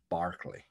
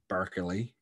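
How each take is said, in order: First: The first syllable sounds like 'bar'. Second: The first syllable sounds like 'burr'. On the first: The speaker calls it right. "it's Barclay. Okay, like the bank" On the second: The speaker calls it wrong. "it's not Berkeley"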